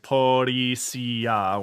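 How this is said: It is said with Japanese-style syllables.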